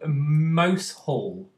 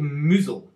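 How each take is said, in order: First: It sounds like the two words mouse hole. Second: It sounds like one short word, moozle. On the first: The speaker calls it wrong. "this isn't the right thing" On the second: The speaker calls it right. "is how you're actually meant to uh, pronounce it"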